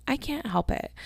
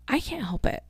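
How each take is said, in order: First: High, soft whiny repeat; sulky high plea; whiny protest. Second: High, soft whiny defence; whiny protest. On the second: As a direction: plead innocence up high. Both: Real, not acted. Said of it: "Quit yawning in your podcast".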